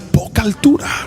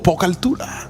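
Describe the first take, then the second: First: It is said loudly and forcefully. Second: It is said at normal, softer volume.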